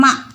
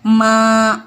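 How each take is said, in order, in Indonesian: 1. Vokalnya dibaca pendek. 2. Vokalnya dibaca panjang. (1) "nggak boleh dibacanya" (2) "dua harkat"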